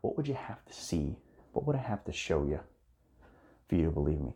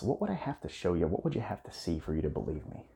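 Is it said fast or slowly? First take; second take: slowly; fast. First: It is said slowly and sincerely. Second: It is said a little fast.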